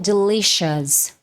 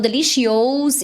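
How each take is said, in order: First: The ending is said as a single short 'us'. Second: The ending is said with separate o-u vowels. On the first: The speaker calls it right. "A terminação vai ser us" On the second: The speaker calls it wrong. "isso não existe no inglês"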